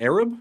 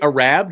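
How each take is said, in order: First: The first vowel is a short A sound. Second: The first vowel is a long A sound.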